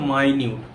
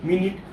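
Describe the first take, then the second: First: The first syllable sounds like 'my'. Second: The first syllable sounds like 'min'. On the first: It means doing something very carefully and closely. "এটা মানে হচ্ছে মাইনিউট" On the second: It means a unit of time. "মিনিট মানে কি ... সময়"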